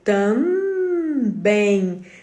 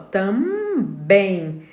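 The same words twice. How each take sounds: First: The nasal is made with an n, lips open. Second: The nasal is made with an m, lips closed. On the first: The speaker calls it wrong. "Se eu for usar o N, eu vou fazer também" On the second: The speaker calls it right. "quando eu falo tam, eu fecho a boca"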